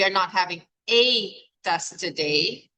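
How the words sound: The word "a" is stressed. Maybe there are several tests, not just one. "If the emphasis is on the A"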